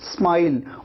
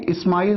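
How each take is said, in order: First: The s joins the m with no vowel. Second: A vowel is added before the s. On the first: The speaker calls it right. "आप कहते हैं स्माइल" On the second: The speaker calls it wrong. "इस्माइल आपको नहीं कहना है"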